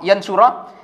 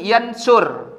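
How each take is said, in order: First: The word ends with a final a vowel. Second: The word ends on the consonant, no vowel. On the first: An accusative-type particle comes before it. "mendapat harkat fathah berbunyi roh" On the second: A jussive-type particle comes before it. "berharkat sukun"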